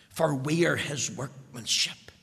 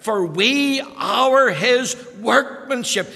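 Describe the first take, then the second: First: Said in the usual way. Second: Slow, loud, with ARE hit hard in "For we are his workmanship"; emphatic verse reading. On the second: Shown as a demonstration. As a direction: lean on "are" and drag the line out. Verse repeated with force.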